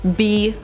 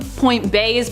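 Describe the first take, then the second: First: The letter is pronounced with the vowel 'ee'. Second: The letter is pronounced with the vowel 'ay'. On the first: "B is also an acceptable pronunciation" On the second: "I like to call them point bays"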